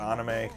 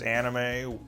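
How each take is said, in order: First: It is said with Japanese vowels and rhythm. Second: It is said with English vowels and stress. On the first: The speaker calls it right. "the actual correct pronunciation is" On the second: The speaker calls it wrong. "the way I'm saying it is anime"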